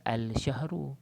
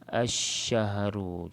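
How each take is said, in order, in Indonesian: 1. Bunyi L yang jelas terdengar sebelum sh. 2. L menyatu menjadi bunyi sh yang dobel. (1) "kalau baca al-syahru, dia jadi alif lam qamariah... tapi tak boleh lah" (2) "Dia kena terus baca asyahru"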